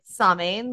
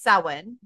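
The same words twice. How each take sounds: First: It is pronounced letter by letter, as spelled. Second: It is pronounced the traditional Irish way. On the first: "but it's spelled like Samhain" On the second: "So in Irish, it's Samhain"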